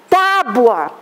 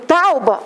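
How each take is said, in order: First: The u sound comes after the b. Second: The u sound comes before the b. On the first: The speaker calls it right. "A palavra é tábua" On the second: The speaker calls it wrong. "aí está errado"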